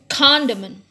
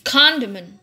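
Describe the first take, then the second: No difference in how they are said.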